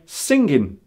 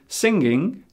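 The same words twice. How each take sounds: First: The final G sound is left off. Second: The final G sound is clearly pronounced. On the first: "take a sound away. One of the most common being G" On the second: "instead of saying singing"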